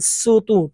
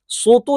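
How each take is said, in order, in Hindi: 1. s ध्वनि सामान्य और हल्की है। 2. s ध्वनि भारी और जोरदार है। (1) "पहले और दूसरे में सिर्फ सीन पढ़ेंगे" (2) "सोतू नहीं पढ़ेंगे"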